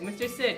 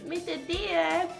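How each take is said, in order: First: The name is said in an ordinary adult voice. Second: The name is said in a childlike voice. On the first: "I do not say Mister Sid, just like" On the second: "It's kind of like a uh, child saying it"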